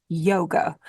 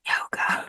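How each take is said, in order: First: Said in the usual way. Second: Hushed, taboo-word whisper. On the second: Real, not acted. Speaker naming a class some people get uptight about, whispered. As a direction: whisper it as if forbidden.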